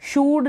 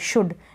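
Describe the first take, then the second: First: The vowel is a long oo sound. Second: The vowel is a short u sound. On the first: The speaker calls it wrong. "शूड नहीं पढ़ेंगे" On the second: The speaker calls it right. "क्योंकि short यू है ना"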